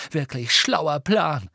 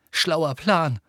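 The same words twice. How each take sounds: First: Slow, higher sarcastic jab; angry sarcasm. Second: Sarcastic jab, pitched up; angry snap. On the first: Harry venting his rage at Hermine, slow angry sarcasm. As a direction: drag it out with angry scorn. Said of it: "um ein wenig von seiner Wut loszuwerden". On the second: Harry venting his rage at Hermine, angry snap. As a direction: snap it out in irritation. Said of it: "fauchte er Hermine an". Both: A narrator's reading.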